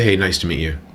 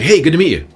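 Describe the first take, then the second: First: The greeting sounds flat and unexcited. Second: The greeting sounds lively and excited.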